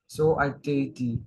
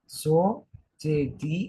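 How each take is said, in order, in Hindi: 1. 'so' के बाद एक अलग 'a' ध्वनि उच्चारित होती है। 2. 'so' के बाद कोई 'a' ध्वनि उच्चारित नहीं होती। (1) "एक तो आपने यहाँ वाले अवग्रह में अ का उच्चारण किया" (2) "अब यहाँ मत करो उच्चारण"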